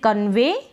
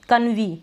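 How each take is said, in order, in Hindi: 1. यह शब्द 'ay' की आवाज़ से खत्म होता है। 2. यह शब्द 'ee' की आवाज़ से खत्म होता है। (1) "अब हम इसको पढ़ रहे हैं कन्वे" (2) "नहीं ये गलत हो जाएगा ना"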